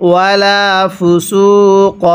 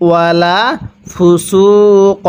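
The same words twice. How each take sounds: Both takes have the same delivery.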